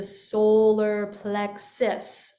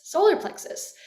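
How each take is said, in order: First: Said in the usual way. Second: "Solar plexus" repeated much higher, stress on solar; emphatic term. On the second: Shown as a demonstration. Teacher repeats "Solar plexus" for students, stressed on solar. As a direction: hit "Solar" up high to name it. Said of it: "we gotta access the solar plexus".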